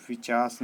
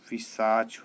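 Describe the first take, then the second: First: पिशाच with sounds swapped, "pichaas"; wrong pronunciation. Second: पिशाच slowly, "pi-saach" with final "ch"; correct pronunciation. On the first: Teacher voices the error, पिशाच said as "pichaas". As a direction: end पिशाच on "s". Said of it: "नहीं होता". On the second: Teacher gives the right form, slow पिशाच ending in "ch". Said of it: "होता है". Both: Shown as a demonstration.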